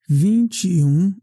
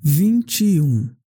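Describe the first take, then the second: No difference in how they are said.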